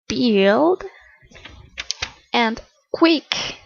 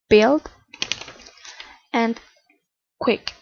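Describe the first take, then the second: First: The vowel is long, said with spread lips. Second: The vowel is short and relaxed. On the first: The speaker calls it wrong. "We can't pronounce" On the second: The speaker calls it right. "The correct pronunciation for these paid, paid words is build"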